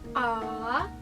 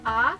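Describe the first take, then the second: First: The pitch dips low first, then rises. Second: The pitch rises steadily from mid to high. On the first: "ada turunnya dulu" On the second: "kalau yang tiorsheng kan naik"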